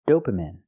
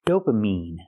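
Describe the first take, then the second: First: The last syllable has a long I sound. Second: The last syllable has a long E sound. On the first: The speaker calls it wrong. "The word is not pronounced dopamine" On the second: The speaker calls it right. "It's pronounced dopamine. I have to use the long E sound like green beans"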